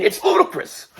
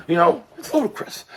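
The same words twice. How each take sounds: First: High, squeaky Tyson-style "ludicrous"; Mike Tyson impression. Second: A hint of Tyson on "ludicrous"; lighter Mike Tyson impression. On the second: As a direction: say "ludicrous" near your normal pitch, slight rise.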